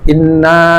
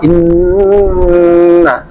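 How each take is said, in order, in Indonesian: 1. Bunyi sengau dipotong pendek dan cepat. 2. Bunyi sengau ditahan panjang sebelum vokal. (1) "Tidak boleh inna, harus lama" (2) "Inna ada lama"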